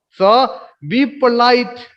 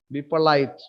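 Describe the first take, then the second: First: Slow emphatic. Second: Said in the usual way. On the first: Shown as a demonstration. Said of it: "teacher repeats command".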